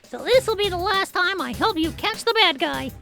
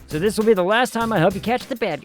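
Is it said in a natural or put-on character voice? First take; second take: put-on; natural. First: It is said in a put-on character voice. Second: It is said in the speaker's normal voice.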